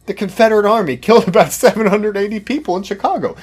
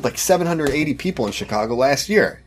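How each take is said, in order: First: Loud, high sarcastic punchline with a laugh. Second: Said in the usual way. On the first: Pretend. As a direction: land the absurd claim mockingly.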